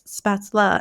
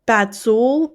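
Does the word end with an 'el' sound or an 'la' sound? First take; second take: la; el. First: The word ends with an 'la' sound. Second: The word ends with an 'el' sound. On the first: The speaker calls it right. "I will also say it right" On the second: The speaker calls it wrong. "I wasn't pronouncing it right"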